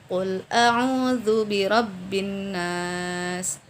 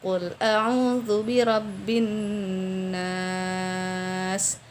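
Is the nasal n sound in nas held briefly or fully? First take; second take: briefly; fully. First: The doubled n has only a brief nasal sound. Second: The doubled n is held with full nasal sound. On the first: The speaker calls it wrong. "kita kurang memberikan gunnah" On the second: The speaker calls it right.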